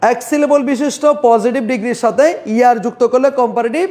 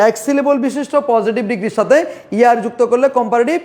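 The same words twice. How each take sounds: The two takes are said the same way.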